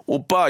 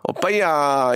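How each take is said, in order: First: Said in the usual way. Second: Cute Gyeongsang-accented "오빠야" with a drawn-out ending; 경상도 사투리. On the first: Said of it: "사투리 쓰면은 더 귀엽고". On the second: Shown as a demonstration. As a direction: stretch the "야" in playful Gyeongsang dialect. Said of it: "경상도 출신의". (귀엽게 늘이는 경상도 사투리)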